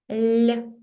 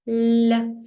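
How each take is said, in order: The two takes are said the same way.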